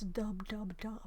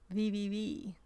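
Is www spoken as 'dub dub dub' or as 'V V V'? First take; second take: dub dub dub; V V V. First: Each letter is said as the syllable dub. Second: Each letter is said as the single sound vee. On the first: This is how most people say it. "as everybody says" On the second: This is how people in Sweden say it. "in Sweden, we just say www. So we don't say the double bit"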